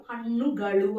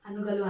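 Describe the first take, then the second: First: హన్నుగలు with retroflex ణ and ళ; careful Kannada హన్నుగలు, final l as ళ; Kannada pronunciation. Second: హన్నుగలు with plain dental న and ల; casual హన్నుగలు without retroflex sounds; mispronounced Kannada. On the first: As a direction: curl the tongue back on the nn and l of హన్నుగలు. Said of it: "pronunciation అనేది చాలా చాలా important". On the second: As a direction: say హన్నుగలు quickly, tongue forward on n and l. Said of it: "హన్నుగలు అనరు". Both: Shown as a demonstration.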